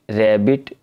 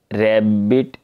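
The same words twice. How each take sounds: First: Said in the usual way. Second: "रैबिट" broken as rab-bit, small gap between; split into syllables. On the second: Shown as a demonstration. Teacher demonstrates two syllables, "रैबिट" split as rab-bit. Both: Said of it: "अब ये two syllable ये देखें रैब".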